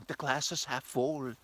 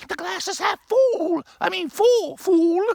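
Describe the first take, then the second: First: Said in the usual way. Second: Much higher, much louder, slow cartoonish arguer; silly high cartoon voice. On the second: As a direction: ham up the know-it-all correcting a friend.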